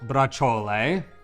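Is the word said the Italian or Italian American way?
Italian. It sounds like a standard Italian pronunciation. "in Italian it's called braciole"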